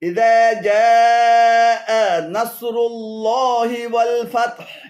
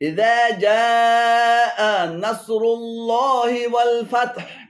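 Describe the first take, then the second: No difference in how they are said.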